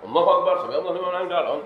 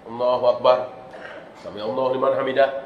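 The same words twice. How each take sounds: First: Rushed, with no stop between phrases. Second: Quick, but with brief stops between phrases. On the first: The prayer is not valid. The speaker calls it wrong. "Langsung kan? ... itu nggak sah" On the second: The prayer is still valid. The speaker calls it right. "Ini kan cepat ya. Tapi ada tumak ninah"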